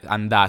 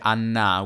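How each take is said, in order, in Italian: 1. Le consonanti in mezzo sono n seguita da d. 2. La consonante centrale è un suono n lungo. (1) "a Roma non si dice andare, andà" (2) "si dice annà"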